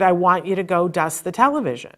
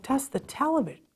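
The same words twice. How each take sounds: First: Said in the usual way. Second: High, soft questioning repeat; baffled echo. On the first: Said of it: "he said". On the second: Retold or imitated. Mother repeating the therapist's odd order, baffled. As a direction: echo it quietly in disbelief.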